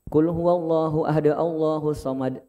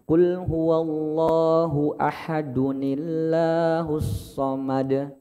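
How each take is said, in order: First: Ahad ends cleanly before Allahu, no added n. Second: Ahad runs into Allahu through an added 'uni' sound. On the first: The speaker calls it wrong. "sebenarnya cara bacanya bukan seperti ini Pak" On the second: The speaker calls it right. "Tapi yang tepat adalah Qul huwallahu ahadunillah"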